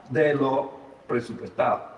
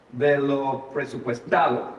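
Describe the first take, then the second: No difference in how they are said.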